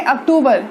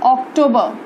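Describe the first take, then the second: First: अक्टूबर as "ak-too-bar", final r sounded; Hindi pronunciation. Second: अक्टूबर as "ok-TOE-buh"; English pronunciation. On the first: Teacher introducing the next month, Hindi pronunciation. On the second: Teacher giving students the English month, English pronunciation. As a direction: say अक्टूबर the English way, final r dropped. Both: Shown as a demonstration. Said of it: "English में कहते हैं".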